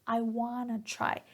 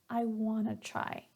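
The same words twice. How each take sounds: The two takes are said the same way.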